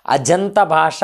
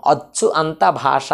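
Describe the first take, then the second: First: "అజంత భాష" with ach fused into aj; joined sandhi form. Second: "అచ్చు అంత భాష" split, with a hard double ch; unjoined split form. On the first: Teacher showing what we say, "అజంత భాష" joined with j. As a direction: say "అజంత భాష" with a voiced j, run together. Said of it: "అన్నాము". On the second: Teacher showing what is not said, "అచ్చు అంత భాష" unjoined. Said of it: "అని అనలేదు". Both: Shown as a demonstration.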